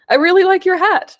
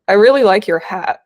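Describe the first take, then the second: First: It is said in a sincere tone. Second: It is said in a sarcastic tone.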